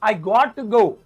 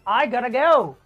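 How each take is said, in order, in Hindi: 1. 'Got to' दो अलग पूरे शब्दों की तरह बोला जाता है। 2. 'Got to' मिलकर छोटा 'gotta' बन जाता है। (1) "मैं तो ऐसे बोलता हूं" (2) "अंग्रेजों वाले स्टाइल में"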